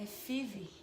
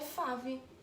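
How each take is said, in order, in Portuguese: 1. A vogal soa como 'ee', lido à maneira portuguesa. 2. A vogal soa como o 'eye' do inglês. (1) "é five. I. A gente tem A, E, I" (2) "Não é fave"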